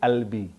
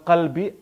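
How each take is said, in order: First: The word begins with a glottal catch. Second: The word begins with a deep q sound. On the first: "orang Mesir kalau qaf jadi a" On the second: "Kalau bilang qalbi"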